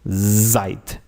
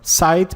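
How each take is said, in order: First: The word begins with a buzzing z sound. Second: The word begins with a hissing s sound. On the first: The speaker calls it right. "this letter will have the sound of the letter Z" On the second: The speaker calls it wrong. "You don't say seit"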